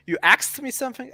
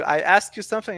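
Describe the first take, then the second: First: "asked" said as "axed", rising question; puzzled question with "asked" turned into "axed"; axe for asked. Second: Said in the usual way. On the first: Shown as a demonstration. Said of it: "it's the same word, right?". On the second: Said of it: "they still say it incorrectly".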